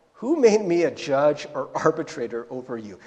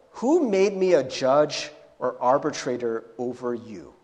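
First: Said in the usual way. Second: Curt, annoyed rebuke; low, annoyed put-down; annoyed Jesus. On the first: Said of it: "just imagine what Jesus' tone is". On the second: Acted. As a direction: brush him off, irritated. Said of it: "doesn't Jesus kinda sound annoyed".

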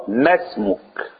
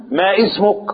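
First: اسمك joined to ما, no stop; اسمك flowing, no glottal stop; linked hamza. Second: اسمك with a hard glottal stop; اسمك, stopped glottal onset; wrong hamza. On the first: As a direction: glide into اسمك, masmuk. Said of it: "غلط، ما اسمك". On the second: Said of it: "غلط". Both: Shown as a demonstration.

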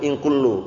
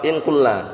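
First: "in kullu" ending in a u vowel; "in kullu" with final u, not a; non-governing reading. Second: "In kulla" ending in an a vowel; "In kulla" with final a, not u; governing reading. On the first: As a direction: end "kullu" on u. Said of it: "Ini bukti bahwa tidak beramal". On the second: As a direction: end "kulla" on a. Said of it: "Kalau beramal apa?". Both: Shown as a demonstration.

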